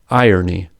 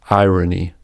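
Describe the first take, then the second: First: The R colors the vowel before it. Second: The R starts the next syllable as a consonant. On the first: "with vocalic R" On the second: "with prevocalic R"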